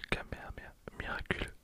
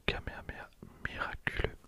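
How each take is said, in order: Both takes have the same delivery.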